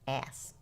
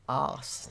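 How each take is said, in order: First: The word is said in an American accent. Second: The word is said in an Australian accent. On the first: The speaker calls it right. "Can I say this in the American way?" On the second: The speaker calls it wrong. "than the Australian one"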